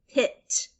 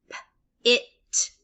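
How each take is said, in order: First: Said in the usual way. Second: "p-, it" as a puffed P, pause, then IT; sound by sound. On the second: Shown as a demonstration. Teacher sounding out for learners, "p-, it" in two pieces. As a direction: separate the P from "it". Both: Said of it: "saying all the sounds individually".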